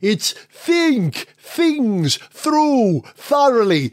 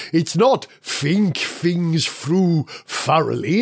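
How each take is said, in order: First: "think things through thoroughly" slow, each th clearly made with the tongue; proper th sound. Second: "think things through thoroughly" with every th said as f, fink fings frough; mock the wrong sound, turning each th into f. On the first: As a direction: slowly model the correct th in every word. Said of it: "Th, th, th". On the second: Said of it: "pronounce the letter th as a f". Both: Shown as a demonstration.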